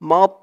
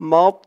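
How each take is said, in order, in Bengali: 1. t টি মোটা, মুখ ভরপুর লাগে। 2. t টি মোটা, মুখ ভরপুর লাগে।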